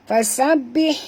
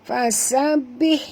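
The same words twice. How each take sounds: The two takes are said the same way.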